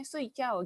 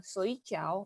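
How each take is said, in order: First: Soy chow with a sharp falling fourth tone on soy; soy chow said in a falling tone, the wrong tone. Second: Soy chow with a slow dipping third tone on soy. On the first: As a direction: drop soy chow straight down from high. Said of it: "nada empat". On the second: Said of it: "itu nada tiga". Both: Shown as a demonstration.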